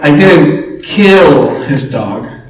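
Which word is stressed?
kill. The stress is on the word 'kill'. The speaker did something else to the dog. "What did you do, right?"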